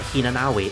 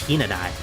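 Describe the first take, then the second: First: A w sound is spoken in the name. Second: No w sound is spoken in the name. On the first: The speaker calls it wrong. "it's actually not Hinanawi" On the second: The speaker calls it right. "because the uh, W is silent"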